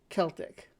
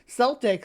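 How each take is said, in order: First: The word begins with a hard K sound. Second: The word begins with a soft S sound. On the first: It follows the original spelling with K. "it should have a hard k sound" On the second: It names the basketball team. "Celtic is a basketball team"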